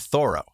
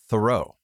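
First: The first syllable sounds like 'Thor'. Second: The first syllable does not sound like 'Thor'. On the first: "in the different way of Henry David Thoreau" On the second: "I pronounce it intentionally because they don't"

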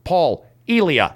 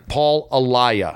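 First: The surname is pronounced like Elia. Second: The surname is pronounced like Alaya. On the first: The speaker calls it wrong. "I said Paul Elia. That's completely off" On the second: The speaker calls it right. "Alaya works"

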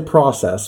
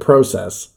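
First: It is said in an American accent. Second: It is said in a Canadian accent. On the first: This is how the speaker normally says it. "I say process" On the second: This is how it was said in the show. "but I heard process"

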